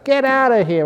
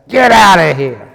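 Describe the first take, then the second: First: It is said angrily with moderate energy. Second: It is said angrily with much more energy.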